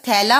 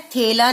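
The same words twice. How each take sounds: First: थैला said with an open ai sound, as thaila; थैला with a clear open ai in the first syllable; the right way, थैला with ai; correct ai vowel. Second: थैला said with a short e sound, as thela; थैला with a clipped e vowel instead of ai; the wrong way, थैला with e. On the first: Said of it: "थैला नहीं होता". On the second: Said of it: "शब्द थैला होता है". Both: Shown as a demonstration.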